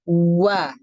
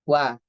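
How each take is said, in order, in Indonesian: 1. Bibir dimajukan jauh terlalu banyak. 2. Bibir dimajukan dengan jumlah yang sedang. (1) "Itu berlebihan" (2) "Kita ambil tengah-tengahnya"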